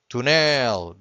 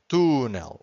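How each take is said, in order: First: The stress is on the last syllable. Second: The stress is on the first syllable. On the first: "Without the accent, this would be túnel, because the word ends with an L... we always have to stress the final syllable" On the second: "every time you have an accent, you stress that syllable"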